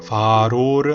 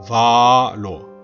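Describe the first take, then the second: First: The middle consonant is a flapped R. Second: A long first vowel, then a single L. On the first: The speaker calls it wrong. "아로는 모음 사이에 R 발음입니다. 둘 다 틀린 거예요" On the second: The speaker calls it right. "앞에 바를 길게 하고 그리고 살짝 끊었다가 뒤에 로를 붙여보세요"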